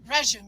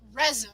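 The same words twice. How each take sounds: First: It is said imitating an Australian pronunciation. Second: It is said in the speaker's usual pronunciation. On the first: This is how the contestants said it. "They said resume, ... it's just pronounced differently" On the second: This is not how the contestants said it. "they didn't say resume"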